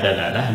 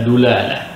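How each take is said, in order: First: The first vowel is an a sound. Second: The first vowel is a u sound. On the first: "bisa dalalah" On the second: "bisa dulalah bitathlits dal"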